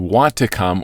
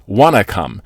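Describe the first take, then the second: First: Both words of 'want to' are said fully. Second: 'Want to' is blended into one word, 'wanna'. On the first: "We just reduce that to want to come" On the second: "or you can even say wanna"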